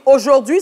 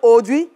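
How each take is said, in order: First: The word is fully and carefully articulated. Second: The word is reduced, with sounds dropped.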